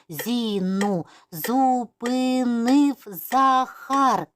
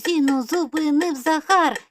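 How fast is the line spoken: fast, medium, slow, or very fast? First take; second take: slow; very fast. First: It is spoken slowly, syllable by syllable. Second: It is spoken at a very fast pace. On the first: "повільно по складах" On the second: "І дуже-дуже швидко"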